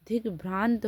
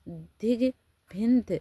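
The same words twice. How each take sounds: First: दिग्भ्रांत said with bhrant, an r cluster and a long nasal a; correct pronunciation. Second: दिग्भिन्त read slowly and loud, higher, with bhin instead of bhrant; misspelled option read out. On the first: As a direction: state the right form दिग्भ्रांत plainly. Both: Shown as a demonstration. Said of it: "दिग्भ्रांत होता है".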